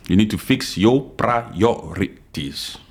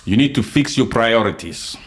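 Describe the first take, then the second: First: Slow, deliberate, each word laid down; slow emphatic repeat. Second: Said in the usual way. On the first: Real, not acted. Podcaster lecturing critics, slow and deliberate. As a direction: repeat it slowly so it sinks in.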